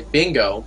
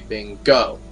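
First: The stress is on the first syllable. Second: The stress is on the last syllable. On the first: The speaker calls it wrong. "it's not E-P-I Bingo" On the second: The speaker calls it right. "but E-P-I Bingo"

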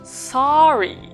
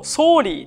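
First: The first vowel is between a and o. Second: The first vowel is a plain Japanese o. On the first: The speaker calls it right. "あとおの間の発音ですね" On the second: The speaker calls it wrong. "すごい日本人的に言うとsorry ってなる"

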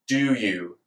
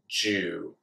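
First: A d sound is followed by y. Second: The d and y merge into j. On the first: "Now let's try it with the D sound" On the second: "Now we've made the j sound out of the d sound"

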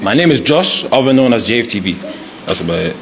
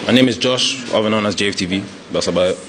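First: He sounds confident and speaks up clearly. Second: He sounds hesitant and unsure of himself.

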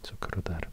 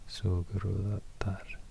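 First: The middle consonants are hard, like k and t. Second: The middle consonants are soft, like g and d. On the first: "so it should be pronounced more like Sukrutar" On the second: "More close to a D letter instead of a T letter ... the K is softer as well, so it's more like a G than a K"

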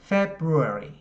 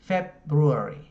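The two takes are said the same way.

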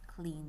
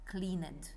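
First: The ending is silent, giving one syllable. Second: The ending is voiced, giving two syllables. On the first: The speaker calls it right. "This E here from E-D, we don't say it" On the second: The speaker calls it wrong. "It's not cleaned. No, that's wrong"

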